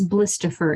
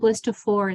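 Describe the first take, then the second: First: The last syllable is said like 'er'. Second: The last syllable is said like 'or'. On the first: "blistifer would be technically correct" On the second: "If you said blistifor, it's okay"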